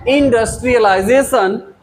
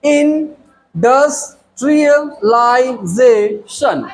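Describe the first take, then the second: First: Said in the usual way. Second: इंडस्ट्रियलाइजेशन very slowly split, in... dus... trial... lai... ze... shun; slow piece-by-piece breakdown of इंडस्ट्रियलाइजेशन, in, dus, trial, lai, ze, shun; syllable by syllable. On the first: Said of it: "five syllabic word है ये". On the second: Shown as a demonstration. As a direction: stretch इंडस्ट्रियलाइजेशन into separate syllables with gaps. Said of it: "five syllable में देखें".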